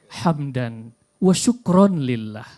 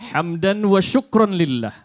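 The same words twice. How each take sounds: First: It is said in a slow, calm way. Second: It is said in a stiff, rigid way. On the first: "yang agak slow" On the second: "ini yang agak kaku"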